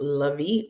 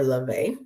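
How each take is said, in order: First: "Levy" said as luh-VEE; first pronunciation. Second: "Levy" said as luh-VAY; second pronunciation. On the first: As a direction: end "Levy" on a long ee, stressed. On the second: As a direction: end "Levy" on a stressed ay. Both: Shown as a demonstration. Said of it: "not sure if it's pronounced".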